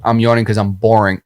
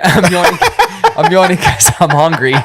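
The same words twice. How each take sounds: First: Said in the usual way. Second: Laughing through the correction. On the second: Real, not acted. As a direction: giggle as he fixes his slip. Laughs correcting his slip.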